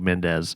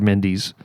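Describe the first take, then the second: First: The name is said in a Spanish style. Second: The name is said in a British style. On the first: The speaker calls it wrong. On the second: It treats the name as British. The speaker calls it right. "it's Mendes or Mendes because they're British"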